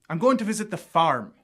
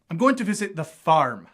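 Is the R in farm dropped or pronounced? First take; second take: pronounced; pronounced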